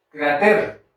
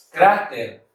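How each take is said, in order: First: "cráter" said as cra-TER, with the stress and a rise on "ter"; stress on the last syllable. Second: "Cráter" said as CRA-ter, with a falling tune; stress on the first syllable. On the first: Teacher testing the wrong stress for the class, cra-TER. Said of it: "en la sílaba ter". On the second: Teacher showing the class the right stress, CRA-ter. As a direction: lean on "Crá" and let "ter" fall away. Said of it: "La palabra cráter sí existe". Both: Shown as a demonstration.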